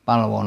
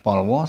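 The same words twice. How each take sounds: First: "palwo" said "pahl-waw", first vowel open ah; "palwo" with ah before the l. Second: "polwo" said "pawl-waw", first vowel rounded o; "polwo" with o before the l; wrong O vowel. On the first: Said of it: "penultimate syllable with al doesn't follow". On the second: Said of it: "not polwo". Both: Shown as a demonstration.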